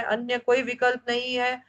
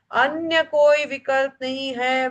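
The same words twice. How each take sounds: First: Said in the usual way. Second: Slow, weighty stress on कोई; slow insistence on कोई for the class; emphatic repeat. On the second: Shown as a demonstration. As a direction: lean hard on कोई, slowly. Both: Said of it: "तीन बार मतलब बहुत विशेष जोर दिया गया है".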